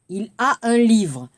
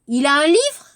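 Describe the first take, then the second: First: The voice falls at the end. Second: The voice rises at the end.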